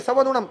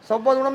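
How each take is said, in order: Both takes have the same delivery.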